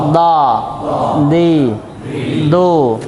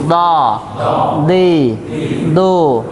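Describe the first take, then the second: No difference in how they are said.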